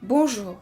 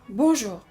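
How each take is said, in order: Both takes have the same delivery.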